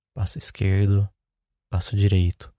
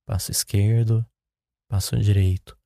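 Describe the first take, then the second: No difference in how they are said.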